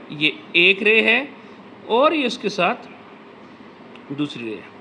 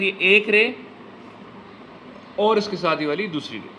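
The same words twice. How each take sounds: First: Slow, spaced-out explaining; walk the kids through it slowly; teacher repeating slowly for children; slow demonstration. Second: Said in the usual way. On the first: Shown as a demonstration. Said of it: "कैसे लगाई?". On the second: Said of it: "देखिए कैसे sir".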